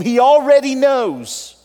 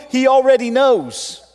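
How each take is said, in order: First: Slow, loud, high He already knows with heavy stress on already; slow preached repeat, leaning on already; slowed emphatic repeat. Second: Loud, high He already knows with weight on already; preached punch on already; emphatic preaching. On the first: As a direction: draw out each word for weight. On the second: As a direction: drive the line home from the pulpit. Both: Shown as a demonstration.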